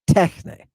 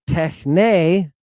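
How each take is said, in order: First: The stress is on the first syllable. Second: The stress is on the last syllable. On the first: The speaker calls it right. "but techne with an accent over the epsilon" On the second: The speaker calls it wrong. "Not techne with an accent on the end"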